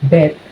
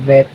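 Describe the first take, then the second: First: The word begins with a B sound. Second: The word begins with a V sound. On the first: It sounds like a bet or betting place. The speaker calls it wrong. "you said vet" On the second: It refers to the animal doctor. The speaker calls it right. "instead of saying vet"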